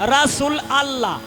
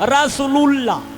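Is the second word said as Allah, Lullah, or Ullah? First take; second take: Allah; Lullah. First: The ending is pronounced as a separate allah. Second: The words are joined into one, ending lullah. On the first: "কেউ কয় আল্লাহ" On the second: "কেউ কয় লুল্লাহ"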